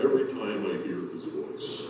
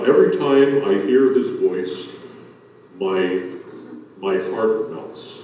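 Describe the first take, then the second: First: Very soft, almost breathed, lovingly; dreamy soft. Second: Softly, lovingly, slowing on heart melts; tender romantic. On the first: Retold or imitated. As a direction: hush it like a swooning wife. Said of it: "This is something Bonnie would say to me". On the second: Shown as a demonstration. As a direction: say it like a love line, gently. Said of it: "it could be read in a more of a caring sense".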